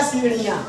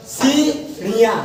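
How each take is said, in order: First: Said in the usual way. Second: सीढ़ियाँ slowly with a clear ढ़; correct slow pronunciation. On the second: Shown as a demonstration. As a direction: model सीढ़ियाँ as it should be read. (सीढ़ियाँ धीमे, सही उच्चारण) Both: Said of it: "ऐसे पढ़ा जाता है".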